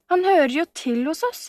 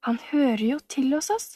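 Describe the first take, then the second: First: High, emphatic objection; protesting. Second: Wondering echo. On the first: Camilla breaking in on the letter, protesting warmly. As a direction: insist he belongs, pitched up. Camilla interrupts, defending Sebastian. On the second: Sebastian doubting what he overheard, echoing it in wonder. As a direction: repeat it as a hushed question to oneself. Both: A narrator's reading.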